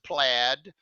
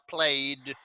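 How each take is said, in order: First: The word is said with its usual spoken vowel. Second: The word is said the way its spelling suggests. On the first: The speaker calls it right. "but we pronounce it plaid" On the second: The speaker calls it wrong. "It looks like plaid"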